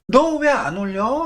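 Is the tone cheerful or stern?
cheerful. It is asked lightly, with a smile.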